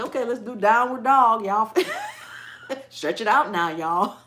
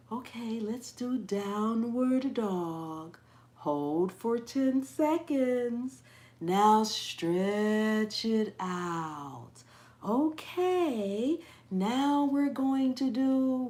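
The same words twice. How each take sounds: First: Loud, laughing, down-home yoga call; hyper yoga instructor. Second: Mocking slow, stretched yoga-teacher voice; calm yoga instructor. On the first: Pretend. The yoga teacher she wishes for, loud and hyper. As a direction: belt it out to the class, breaking into laughs. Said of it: "I want somebody to say". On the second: Imitating yoga teachers calling downward dog, exaggerated slow calm. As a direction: draw every word out long, like an over-soothing yoga teacher. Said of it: "they talk like that".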